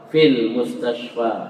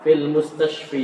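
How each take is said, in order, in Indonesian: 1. Kata terakhir berakhir dengan vokal 'a' panjang. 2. Kata terakhir berakhir dengan vokal 'ee'. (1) "tetap alif" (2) "Jangan ... Eh, jangan gitu"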